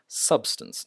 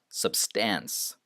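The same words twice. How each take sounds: First: SUB-stance, high first syllable in Substance; stress on first syllable. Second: Sub-STANCE, drawn-out end of substance; wrong stress on second syllable. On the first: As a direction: hit the start of Substance, casually add the rest. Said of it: "I stress sub and then just". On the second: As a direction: lean on the second half of substance. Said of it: "not substance". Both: Shown as a demonstration.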